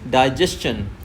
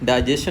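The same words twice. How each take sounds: First: The ending is a 'stchun' sound. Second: The ending is a plain 'shun' sound. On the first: The speaker calls it right. "It's डाइजेशन" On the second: The speaker calls it wrong. "डाइजेशन नहीं होता है"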